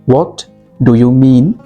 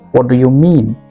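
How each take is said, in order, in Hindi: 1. हर शब्द अलग-अलग और साफ़ बोला जाता है। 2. सारे शब्द जुड़कर एक वाक्यांश की तरह बोले जाते हैं।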